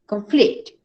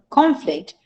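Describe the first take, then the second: First: "Conflict" with stress on FLICT; verb stress. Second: "Conflict" with stress on CON, pitched higher; noun stress. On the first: Teacher modelling the verb for the class, second-syllable stress on "Conflict". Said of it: "On the second syllable". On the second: Teacher modelling the noun for the class, first-syllable stress on "Conflict". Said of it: "On the first syllable". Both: Shown as a demonstration.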